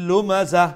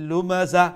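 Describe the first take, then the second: No difference in how they are said.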